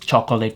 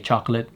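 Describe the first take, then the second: First: The word is said with three syllables. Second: The word is said with two syllables. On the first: This is how the speaker says it. "chocolate is three syllables, not two" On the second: Other people say it this way. "I don't know why people say chocolate"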